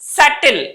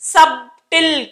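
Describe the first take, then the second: First: No b sound is heard in the middle. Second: A b sound is heard in the middle. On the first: The speaker calls it right. "బి పలకూడదు" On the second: The speaker calls it wrong. "సబ్టిల్ కాదు, సబ్ ఉంది కదా, అందుకని సబ్ అనకూడదు"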